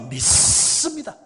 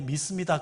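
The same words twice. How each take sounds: First: The s sound is strongly stressed and hardened. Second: The s sound is plain and unemphasized. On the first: "시어자 발음에 정말 강조할 정도로" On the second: "그렇게 말 안 합니다"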